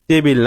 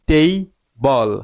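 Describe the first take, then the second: First: The second syllable has an 'i'-like vowel. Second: The second syllable has an 'o'-like vowel. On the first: The speaker calls it wrong. "টেবিল না" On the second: The speaker calls it right. "টেই বল, টেবিল না"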